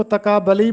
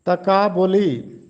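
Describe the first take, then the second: First: तकाबली with a after b, "ta-kaa-ba-li"; wrong तकाबली, zabar on the b; common mispronunciation. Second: Slow तकाबुली, "ta-kaa-bu-li"; तकाबुली with pesh on the b, drawn out; correct pronunciation. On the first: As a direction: open vowel on b in तकाबली. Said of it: "अक्सर लोग इसको तकाबली पढ़ते हैं". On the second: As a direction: say तकाबुली slowly with u after b. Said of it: "जबकि पेश है". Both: Shown as a demonstration.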